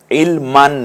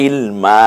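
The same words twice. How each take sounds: First: ইলমান closed with an n; tanween ending. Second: ইলমা with a long open final "maa"; one-alif stretch. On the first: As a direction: sound the final n of ইলমান. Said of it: "ইলমান না কিন্তু". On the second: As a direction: hold the end of ইলমা, no n. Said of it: "এক আলিফ টানবো". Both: Shown as a demonstration.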